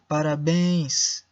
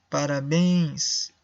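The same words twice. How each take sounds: The two takes are said the same way.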